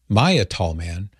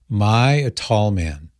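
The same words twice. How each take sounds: First: The name is said at a normal pace. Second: The name is said slowly and deliberately.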